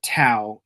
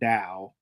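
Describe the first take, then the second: First: The word is read like its English-looking spelling. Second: The word follows its original Chinese pronunciation. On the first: This is how the characters in the film say it. The speaker calls it wrong. "everybody calls it Tao" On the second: This is how the word is really said. The speaker calls it right. "the word is pronounced like Tao"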